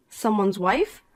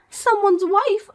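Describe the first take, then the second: First: Said in the usual way. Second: Slow, higher sneering repeat; mocking echo. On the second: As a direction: throw her words back at her with scorn. Poppy echoes mockingly.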